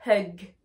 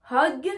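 First: Hug with an "eu" vowel, low and falling; low contrastive hug, vowel as eu. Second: Hug said as "hog", rising; O vowel. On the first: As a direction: hug with uh, not o. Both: Shown as a demonstration. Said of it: "Vous voyez la différence?".

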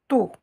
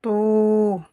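First: "To" as emphatic "tou" with a brief vowel; short vowel. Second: "To" as "touuu", held long; long vowel. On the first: Teacher shows short vowels, brief tou. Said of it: "avec les voyelles courtes". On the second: Teacher shows long vowels, drawn-out tou. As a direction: stretch out the vowel of "To". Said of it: "Avec les voyelles longues". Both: Shown as a demonstration.

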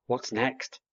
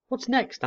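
First: Owlet asking. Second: High, eager little owlet voice. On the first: Owlet asks again after fish. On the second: Young owl asking parents for more food, eager. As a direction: pipe up hungrily as a young owl. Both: Acted.

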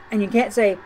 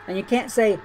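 The two takes are said the same way.

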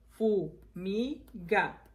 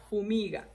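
First: "Fumiga" slowly split fu, mi, ga; syllable by syllable. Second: Said in the usual way. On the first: Shown as a demonstration. Teacher reviewing the words, "Fumiga" broken into three syllables. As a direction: pause after each syllable of "Fumiga". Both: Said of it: "vamos a repasar las palabras".

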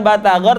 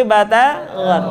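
First: BATAGOR with an ordinary hard g. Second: BATAGOR slow with a throaty soft g; soft gha. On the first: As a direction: say BATAGOR with a firm stop on G. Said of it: "Bukan batagor". ("batagor" dengan g biasa) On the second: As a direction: slide the G of BATAGOR through the throat. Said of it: "tapi lembut". ("batagor" dengan g lembut) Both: Shown as a demonstration.

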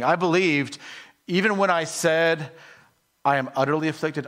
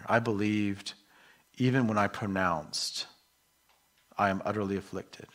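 First: Higher and louder, pressing the words; emphatic reread. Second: Said in the usual way. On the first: Shown as a demonstration. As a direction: proclaim it with full conviction. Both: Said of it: "He's saying".

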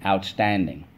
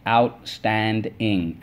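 First: Said in the usual way. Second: "Outstanding" stretched slowly as out-stand-ing; syllable by syllable. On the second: Shown as a demonstration. Teacher leading the class, slowly syllable by syllable. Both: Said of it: "let's go".

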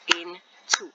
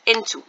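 First: INTO broken in two, IN ... TO; split into syllables. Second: Said in the usual way. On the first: Shown as a demonstration. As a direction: say INTO as two slow beats, pausing after IN. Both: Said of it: "It has two syllables".

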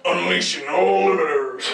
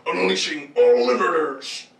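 First: Robot announcer voice. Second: Slow, deliberate mechanical line; slow robot announcer. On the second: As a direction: drag it out like a machine. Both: Acted. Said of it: "This one just goes like".

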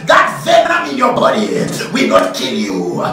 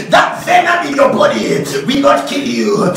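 The two takes are said the same way.

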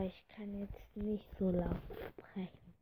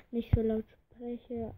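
First: Hushed breathy whisper. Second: Said in the usual way. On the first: Real, not acted. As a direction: whisper so nobody else hears. (flüsternd)

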